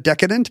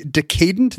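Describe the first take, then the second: First: "decadent" as DECK-a-dent; modern pronunciation. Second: "decadent" as de-CAY-dent; older pronunciation. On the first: Host contrasting today's form, "decadent" as DECK-a-dent. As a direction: stress the first syllable of "decadent". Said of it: "instead of decadent". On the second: Host showing the old form, "decadent" as de-CAY-dent. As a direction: stress the middle of "decadent", rhyming it with decay. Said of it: "it used to be decadent instead of decadent". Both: Shown as a demonstration.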